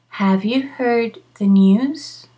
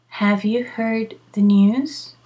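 The two takes are said the same way.

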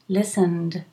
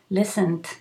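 First: The word ends with a soft D sound. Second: The word ends with a harder T sound. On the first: "you can do a D if you can, a D" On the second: "or if you can't, do a T"

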